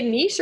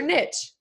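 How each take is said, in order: First: "niche" with a long ee, ending in sh; niche as "neesh". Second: "niche" with a short i, ending in tch; anglicized "niche", like "nitch". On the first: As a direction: say "niche" to rhyme with leash. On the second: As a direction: say "niche" to rhyme with pitch. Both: Shown as a demonstration. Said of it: "Do you say niche or niche?".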